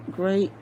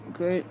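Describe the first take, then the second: No difference in how they are said.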